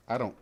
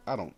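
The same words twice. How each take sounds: The two takes are said the same way.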